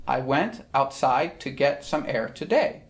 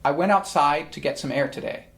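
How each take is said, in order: First: Measured "I WENT outSIDE to GET some AIR toDAY"; iambic stress. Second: Said in the usual way. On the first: Shown as a demonstration. Teacher showing everyday speech as verse, deliberate iambic stresses. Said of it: "that's iambic pentameter". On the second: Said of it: "take a sentence from modern day life".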